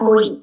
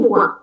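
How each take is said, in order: First: The letters are read as "oi". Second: The letters are read as "wa". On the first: The speaker calls it wrong. "bukan oi" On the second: The speaker calls it right. "tapi wa"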